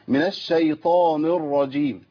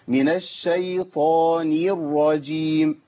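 First: The n is pronounced heavy and thick. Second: A y sound is added after the n. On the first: "او افخم النون بتاعت الشيطان" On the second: "نير عشان اخلص النون من راء فاجيب ايه؟ ياء"

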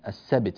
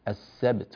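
First: The b sound leans toward a vowel. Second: The b sound is released cleanly. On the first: The speaker calls it wrong. "ولا نميل الباء إلى حركة معينة، السبت مثلا هذا غير صحيح" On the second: The speaker calls it right. "السبت ولا نقول السبت"

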